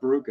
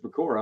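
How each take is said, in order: First: The r comes before the k: Ba-ru-ka. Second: The k comes before the r: Ba-ku-ra. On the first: The speaker calls it wrong. "I've been saying it wrong the whole time" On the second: The speaker calls it right. "pretty sure it's Bakura"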